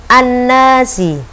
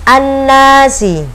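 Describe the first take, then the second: Both takes have the same delivery.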